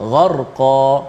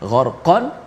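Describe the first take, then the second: First: The word ends on a vowel without n. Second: The word ends with an n sound. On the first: This is the form used when stopping at the verse end. "dibaca dengan ma'yuat ataupun gantian daripada tanwin" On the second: This is the form before stopping at the verse end. "asalnya semua tanwin"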